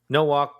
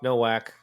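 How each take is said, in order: First: The name ends with a sound like walk. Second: The name ends with a sound like whack.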